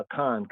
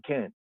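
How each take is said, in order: First: "I can" with a full "I" before "can"; how many people say it, "I can"; said the common way. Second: "can" alone, no "I" before it; the proper way, just "can"; corrected pronunciation. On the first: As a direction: say it as "I can", two syllables. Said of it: "some of our Israelite ones and ones, you know, say I can". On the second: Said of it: "But actually it's can". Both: Shown as a demonstration.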